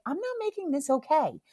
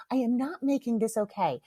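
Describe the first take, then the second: First: High-pitched retold refusal in one run; firm refusal. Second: "I am not" spelled out, each word separate; emphatic refusal. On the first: Mom refuses to soothe her guilty child, firm refusal. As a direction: raise the pitch and refuse to give in. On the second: Retold or imitated. Mom repeats her refusal to her child, emphatic on "not". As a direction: restate it deliberately, weight on "not".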